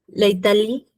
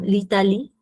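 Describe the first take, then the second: First: The article is said as a separate full syllable. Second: The article is joined to the word's first vowel. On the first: The speaker calls it wrong. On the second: The speaker calls it right.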